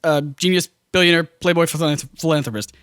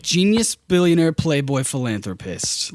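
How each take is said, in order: First: Listing each title. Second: Matter-of-fact list. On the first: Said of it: "they have Robert Downey Junior say the line like". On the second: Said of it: "He's not saying it super smart alecky". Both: Retold or imitated.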